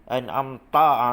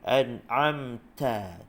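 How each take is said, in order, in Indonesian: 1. Bunyi ta itu keras dan tegas. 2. Bunyi ta itu lembut dan ringan. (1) "Jangan ta gitu" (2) "ta dia lembut je"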